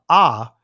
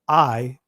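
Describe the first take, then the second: First: The vowel sounds like 'ah'. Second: The vowel sounds like 'eye'. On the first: The speaker calls it right. "I'm going to say I uh, ah" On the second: The speaker calls it wrong. "instead of saying I"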